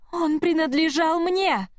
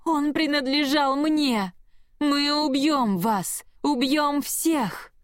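First: High, slow, inhuman wail; demonic shriek. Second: High, slow, inhuman threats; demonic roar. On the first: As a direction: scream it like a possessed thing. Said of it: "завопила Петра". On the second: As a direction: drag out each threat like a monster. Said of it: "зарычала от боли и ярости". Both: A narrator's reading.

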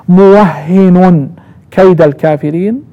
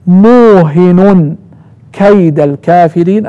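First: موهن very slowly as muwahhinun; doubled h in موهن. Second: موهن very slowly as muuhinun; nunation without doubling. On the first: Teacher reciting a third time, doubled h in موهن. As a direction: hold the shadda in موهن, then kayda. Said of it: "بالتشديد". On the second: Teacher showing the second reading, single h in موهن. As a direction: stretch the long u of موهن, end on -un. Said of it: "يعني بتنوين النون مع الضم". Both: Shown as a demonstration.

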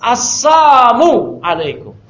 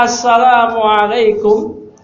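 First: Assamu alaikum said slowly, the twisted greeting with samu for salam. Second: Assalamualaikum said slowly with the full salam, the proper greeting; correct salam. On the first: Teacher showing the distorted greeting, Assamu alaikum said slowly. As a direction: Assamu alaikum drawn out so the missing la is heard. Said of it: "Diplesetin sama orang Yahudi". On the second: Teacher showing the proper greeting, Assalamualaikum said slowly. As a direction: Assalamualaikum drawn out with a clear ssalam, no slip. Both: Shown as a demonstration.

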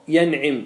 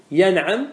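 First: ينعم with an i vowel after the ayn; kasra form. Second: ينعم with an a vowel after the ayn; fatha form. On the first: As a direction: say ينعم as "yan'im", with i in the last syllable. (ينعم بكسر العين) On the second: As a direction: say ينعم as "yan'am", with a in the last syllable. (ينعم بفتح العين) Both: Shown as a demonstration. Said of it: "بالفتح وبالكسر".

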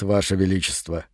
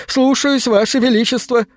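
First: Low, soft creaking tree voice; creaking wooden voice. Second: High, snappy obedient yes-sir; eager servant voice. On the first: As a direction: answer calmly like cracking oak. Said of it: "голосом, похожим на треск переламываемой дубовой ветви". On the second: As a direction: leap to attention and answer. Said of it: "камень подскочил бы со словами". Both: A narrator's reading.

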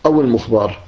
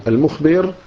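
First: المخبر said al-mukhbar, a in last syllable; passive participle vowel. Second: المخبر said al-mukhbir, i in last syllable; active participle vowel. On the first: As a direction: say المخبر with fatha on the ba. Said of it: "يعني إما اسم مفعول". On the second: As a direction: say المخبر with kasra on the ba. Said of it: "أو اسم فاعل". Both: Shown as a demonstration.

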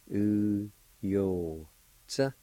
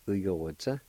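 First: U, yo, tsa, drawn out with gaps; syllable by syllable. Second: Said in the usual way. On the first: Shown as a demonstration. Teacher repeating the word for flaw, syllable by syllable. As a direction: separate each syllable of "U, yo, tsa". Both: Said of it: "It's pronounced like this".

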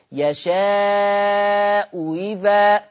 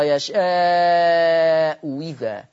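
First: يشاء إذا drawn out very slowly, the hamza of إذا eased toward ي; eased hamza recitation. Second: يشاء إذا drawn out very slowly, إذا begun with a و sound; hamza turned to waw. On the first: Teacher models Quranic easing for students, very slow. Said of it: "أقولها تاني". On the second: Teacher shows the substitution reading for students, very slow. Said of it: "والإبدال واو مكسورة". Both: Shown as a demonstration.

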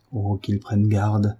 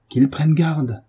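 First: Slow, held-back warning. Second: Higher, more forceful warning; heightened warning. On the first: Son warns against his father, slow and contained. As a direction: draw the threat out slowly. Son's threat, said twice. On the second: Son warns against his father, voice raised in pitch. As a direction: lift the voice and press the threat. Son repeats threat, rising. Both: A narrator's reading.

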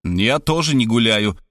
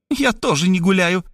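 First: Robert grumbling back. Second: High, quick retort; woman parrying Robert's words. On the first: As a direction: grumble it under your breath. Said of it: "буркнул я". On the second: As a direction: fire it back at him. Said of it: "парировала Мархалёва". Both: A narrator's reading.

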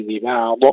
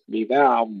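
First: ببعض with the final ض popped into a short vowel; wrong bounced dad. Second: ببعض ending on a held ض, no release; held dad. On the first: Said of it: "لا نقلقل الضاد أيضًا". (ببعض بقلقلة الضاد خطأً) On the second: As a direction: press and hold the dad that ends ببعض. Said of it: "ننتبه إلى استطالة الضاد". (ببعض باستطالة الضاد دون قلقلة) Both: Shown as a demonstration.

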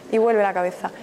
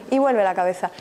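Both takes have the same delivery.

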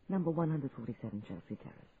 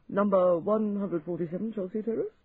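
First: Calm, firm and quieter; firm repeat. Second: Baffled clerk repeating it higher; puzzled echo, rising at the end; surprised and baffled. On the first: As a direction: state it plainly, no doubt. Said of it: "repeats address firmly". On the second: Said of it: "surprised and baffled". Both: A narrator's reading.

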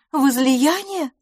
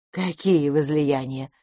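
First: High, drawn-out anxious query; worried questioning. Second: Slow, lower questioning echo; unruffled echo. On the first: Miss LaFosse suspects her friend of drinking, worried. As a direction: stretch the word out high, in concern. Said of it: "вопросила мисс Лафос обеспокоенно". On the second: Tipsy Miss Pettigrew answers the suspicion, unruffled. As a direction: draw it out, lower and untroubled. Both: A narrator's reading.

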